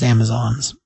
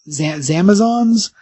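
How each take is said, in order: First: "Zamazons" said plainly with a clear Z at the start; "Zamazons" with a Z, not "Amazons"; calm correction "Zamazons" with a Z. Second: Slow, stumbling "Z-, Zamazons" with a buzzing Z at the start; higher, slow "Zamazons" with a Z. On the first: Shown as a demonstration. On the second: Retold or imitated. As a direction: draw out "Zamazons" uncertainly, starting on a Z sound. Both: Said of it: "Not Amazons".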